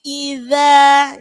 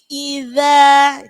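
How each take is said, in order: First: The middle consonant is a 'dh' sound. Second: The middle consonant is a 'dh' sound.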